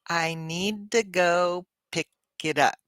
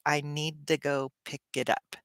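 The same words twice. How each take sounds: First: The sentence is said slowly and carefully. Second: The sentence is said quickly and smoothly. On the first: "put it together slowly" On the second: "how we would say it more naturally"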